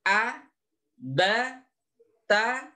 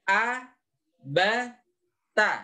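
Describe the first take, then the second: The two takes are said the same way.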